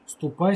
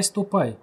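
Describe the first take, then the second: First: Said in the usual way. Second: A mildly softened "ступай", falling gently. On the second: Acted. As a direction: let "ступай" go gentle, giving in. (мягче, уступая: «ступай») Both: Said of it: "вдруг смягчился отец Бенедикт".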